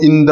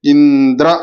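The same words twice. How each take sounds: First: ఇంద్ర with the final vowel stretched to "indraaa"; unneeded long vowel. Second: ఇంద్ర ending in a short "a"; short final vowel. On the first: Teacher showing students the needless length, ఇంద్ర ending long. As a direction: hold the last "aa" of ఇంద్ర long. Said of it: "దీర్ఘం అవసరం లేదు". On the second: Teacher showing students what suffices, ఇంద్ర ending short. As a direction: say ఇంద్ర without lengthening the end. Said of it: "ఇంద్ర అయితే సరిపోతుంది". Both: Shown as a demonstration.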